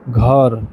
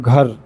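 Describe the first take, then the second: First: The word ends with an audible short a vowel. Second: The word ends without an audible final vowel. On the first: This is the Maithili way of saying it. "जब मैथिली में बोलते हैं तो घर" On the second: This is the Hindi way of saying it. "अगर हिंदी में बोलते हैं तो घर, अ जो है बहुत मतलब पता नहीं चल पाता है"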